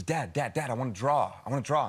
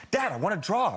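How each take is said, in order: First: Said in the usual way. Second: Higher-pitched imitation of a nagging daughter; insistent child. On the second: Jet-lagged daughter wakes dad to draw, insistent child. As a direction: press the request like an impatient child.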